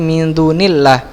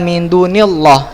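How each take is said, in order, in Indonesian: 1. Bunyi L pada 'Allah' itu ringan dan tipis. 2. Bunyi L pada 'Allah' itu berat dan tebal. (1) "maka dibaca tipis" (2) "bukan min dunillah itu salah"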